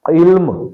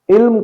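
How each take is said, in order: First: علم as one syllable, "ilm"; no vowel on the laam in علم, "ilm"; درست تلفظ. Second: علم in two syllables, "i-lam"; غلط تلفظ. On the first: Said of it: "درست تلفظ". (علم، لام ساکن کے ساتھ) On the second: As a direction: put a vowel on the laam in علم, "ilam". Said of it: "غلط ہے". (علم، لام پر زبر کے ساتھ) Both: Shown as a demonstration.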